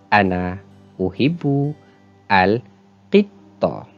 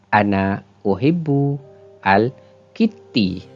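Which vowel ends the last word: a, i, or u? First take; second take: a; i. First: The last word ends in an a vowel. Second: The last word ends in an i vowel. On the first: The speaker calls it right. "Yang betul ... dibariskan dengan baris atas" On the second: The speaker calls it wrong. "dibaca dengan baris di bawah ... Salah"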